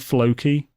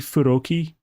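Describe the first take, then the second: First: The name is said with English sounds. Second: The name is said with Japanese syllables. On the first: It switches language mid-sentence. The speaker calls it wrong. "You wouldn't say Floki" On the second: It fits into a Japanese sentence. The speaker calls it right. "you would say Furoki"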